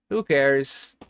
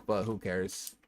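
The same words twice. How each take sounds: First: Louder, punching the word who; defiant repeat. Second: Said in the usual way. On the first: Acted. Streamer brushing off chat's judgement, defiant and louder. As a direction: throw it back at them, defiant.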